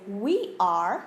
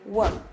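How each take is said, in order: First: The two words are said separately and fully. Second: The words are squeezed together into one syllable. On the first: The speaker calls it wrong. "you don't say we are" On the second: The speaker calls it right. "You say we're"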